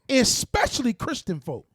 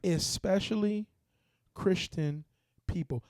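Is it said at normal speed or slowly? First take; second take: normal speed; slowly. First: It is said at normal speed. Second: It is said slowly and deliberately.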